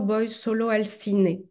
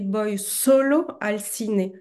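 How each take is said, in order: First: The first o of solo is not specially stressed. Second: The first o of solo is clearly stressed. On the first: The person goes to the cinema alone. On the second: The person goes only to the cinema.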